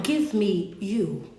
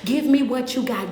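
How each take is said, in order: First: Slow emphatic plea. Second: Said in the usual way. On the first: Acted. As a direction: let each word land slowly. Repeated plea, then slowed down.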